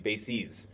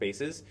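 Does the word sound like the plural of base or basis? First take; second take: basis; base. First: It is said as the plural of basis. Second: It is said as the plural of base. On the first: More than one basis. "It's a plural for basis" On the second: More than one base. "like an army base, and you have many different bases, then it's pronounced bases"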